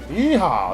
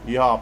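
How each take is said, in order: First: The word is said in a cheerful tone. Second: The word is said in a sad tone. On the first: The speaker calls it wrong. "No, no, no" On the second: The speaker calls it right. "it's gotta be like a sad yeehaw"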